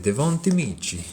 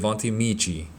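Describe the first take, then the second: First: The name is said in an Italian accent. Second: The name is said in a plain accent. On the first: "If I was Italian, I'd say" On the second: "Not sure how to pronounce it"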